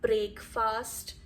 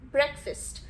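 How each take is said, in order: First: The A vowels are fully pronounced. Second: The A vowels are almost silent. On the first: The speaker calls it wrong. "It's not breakfast" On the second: The speaker calls it right. "both the A's are almost silent"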